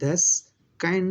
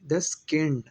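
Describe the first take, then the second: First: The vowel in the second word glides like 'eye'. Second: The vowel in the second word is short, without glide. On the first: The speaker calls it wrong. "दस काइंड नहीं बोलेंगे" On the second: The speaker calls it right. "दस कैंड बोलेंगे"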